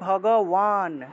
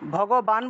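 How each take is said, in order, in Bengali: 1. শেষ অক্ষরটি w দিয়ে শুরু। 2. শেষ অক্ষরটি b দিয়ে শুরু। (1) "বলবো যে ভগবান" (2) "ভগবান বলবো না"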